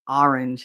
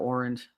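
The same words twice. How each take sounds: First: It is said with a New Jersey accent. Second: It is said with a standard American accent.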